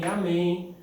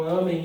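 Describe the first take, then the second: First: "amém" said a-MÉM, stressed on the ending; final-syllable stress. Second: "amém" said ÂMEN, stressed on the first A; first-syllable stress. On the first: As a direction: put the weight on MÉM in "amém". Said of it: "oxítona terminada em em". ("amém" com força na última sílaba) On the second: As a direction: put the weight on AH in "amém", weak ending. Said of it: "como eu não tenho acento aqui". ("amém" com força na primeira sílaba) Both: Shown as a demonstration.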